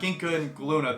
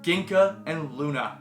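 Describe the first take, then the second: First: The second name starts with a G sound. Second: The second name starts with an L sound. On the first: The speaker calls it wrong. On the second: The speaker calls it right. "The G is silent"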